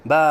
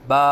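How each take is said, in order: First: The voice wavers up and down on the vowel. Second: The voice stays perfectly steady on the vowel. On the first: The speaker calls it wrong. "आवाज़ में लहराव सा पैदा करते हैं, ये गलत है" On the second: The speaker calls it right. "आवाज़ को बिल्कुल सीधी रखें"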